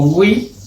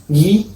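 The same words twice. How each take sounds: First: Second "gui" as gwi; sounded U. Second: First "gui" as hard g plus i; silent U. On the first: Teacher showing what diéresis does, U pronounced. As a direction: glide through w in "gui". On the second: Teacher showing the sound without diéresis, U silent. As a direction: say "gui" as gee, no w. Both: Shown as a demonstration. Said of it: "modifica el sonido de una sílaba".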